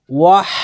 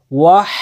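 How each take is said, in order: Both takes have the same delivery.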